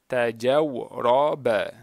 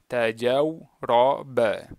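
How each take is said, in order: The two takes are said the same way.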